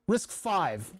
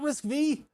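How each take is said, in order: First: The final part is said as the number five. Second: The final part is said as the letter vee. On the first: The speaker calls it right. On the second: The speaker calls it wrong. "It's not Risk V"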